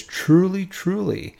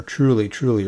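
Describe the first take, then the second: First: First "Truly" leapt up much higher, second "truly" high then falling; emphatic truly truly. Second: Said in the usual way. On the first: Shown as a demonstration. Jesus firing back at Nicodemus, emphatic high "Truly, truly". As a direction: hit "Truly, truly" hard and high like a comeback. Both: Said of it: "He has that emphasis".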